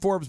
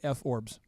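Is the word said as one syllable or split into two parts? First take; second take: one syllable; two parts. First: It is said as a single syllable. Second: It is split into a letter F and orbs. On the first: The speaker calls it right. "It's called it's called Forbes" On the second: The speaker calls it wrong. "if you want to mispronounce it at home, you could say"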